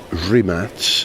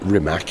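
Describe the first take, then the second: First: The name ends with a ts sound. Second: The name ends with a k sound. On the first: The speaker calls it right. "I've learned how to say it properly" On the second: The speaker calls it wrong. "It's not Rimac"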